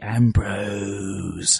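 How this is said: The name is drawn out, in a British accent. "it would be Ambrose"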